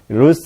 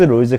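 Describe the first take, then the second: First: The name ends with a voiceless s sound. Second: The name ends with a voiced z sound. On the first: "롤스라고 여기 교재에 써놨잖아요" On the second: "가끔씩 롤즈라고 나오는 경우도 있거든요"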